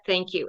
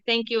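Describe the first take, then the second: First: It is said sincerely. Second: It is said sarcastically.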